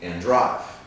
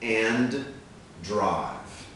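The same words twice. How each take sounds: First: It is said quickly, with one D sound. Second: It is said slowly and carefully.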